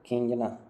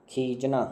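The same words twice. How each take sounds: First: "खींचना" with a nasal, as "kheenjna"; corrected pronunciation. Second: "खींचना" without nasal, as "kheejna"; wrong pronunciation. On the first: Teacher corrects the word for students, nasal added. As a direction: add a clear n sound before j in "खींचना". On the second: Teacher reads out the faulty word, nasal left out. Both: Shown as a demonstration. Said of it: "ये गड़बड़ हो गया इधर".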